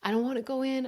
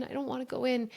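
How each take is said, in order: First: Lightly voiced tearful little girl, higher; a hint of a child pleading through tears; crying child. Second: Put-on a little girl's plea trailing off; crying child, fading. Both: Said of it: "and she's crying".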